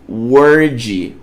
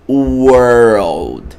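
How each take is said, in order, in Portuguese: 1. Não se pronuncia com som de L. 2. Pronuncia-se com som de R e depois L. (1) "Muita gente olha e com a mentalidade no português pronuncia como word" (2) "a forma correta de pronunciar é essa aqui ... o som de R L"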